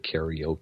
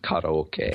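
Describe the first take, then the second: First: It is pronounced with the usual English pronunciation. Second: It is pronounced with the original Japanese pronunciation. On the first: The speaker calls it wrong. "everyone mispronounces that in English. We say karaoke" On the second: The speaker calls it right. "when really it's karaoke"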